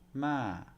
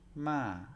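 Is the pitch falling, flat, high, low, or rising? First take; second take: falling; falling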